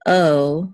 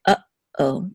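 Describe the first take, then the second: First: Uh-oh merged into one gliding "oh"; syllables run together. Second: Uh-oh with a clear stop between uh and oh; distinct syllables. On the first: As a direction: slide uh into oh with no pause, heard as "oh". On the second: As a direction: cut off "uh" before starting "oh". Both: Shown as a demonstration. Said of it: "to make the two syllables distinct".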